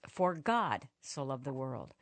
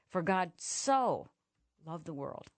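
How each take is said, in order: First: The stress is on the word God. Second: The stress is on the word so.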